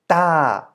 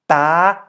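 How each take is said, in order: First: The pitch falls across the syllable. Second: The pitch is high across the syllable. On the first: "In a falling tone" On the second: "To make it a high tone"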